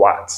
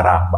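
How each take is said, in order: First: "rat" with the final t pronounced; English "rat", closing on a clear t; final letter sounded. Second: "rat" the French way, ending on the vowel; wrong reading "rat" with no t heard; silent final letter. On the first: Teacher corrects French reading for learners, sounded t in "rat". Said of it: "on lit toujours la dernière lettre". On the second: Teacher shows what not to say, silent t in "rat". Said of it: "On dit pas rat". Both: Shown as a demonstration.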